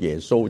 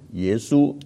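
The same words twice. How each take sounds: First: The name is read with Cantonese pronunciation. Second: The name is read with Mandarin pronunciation. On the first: It no longer sounds close to the original Greek name. "翻了广东话之后就变成耶稣就不近了" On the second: It sounds close to the original Greek name. "你用普通话来读耶稣"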